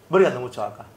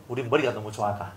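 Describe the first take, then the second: First: 머리가 너무 좋아가 restated at normal loudness, 머리가 stressed; emphatic repeat; repeated for emphasis. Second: 머리가 너무 좋아가 dropped low and soft, half to himself; soft rueful remark; muttered aside. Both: Shown as a demonstration.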